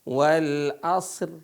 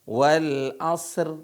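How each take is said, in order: The two takes are said the same way.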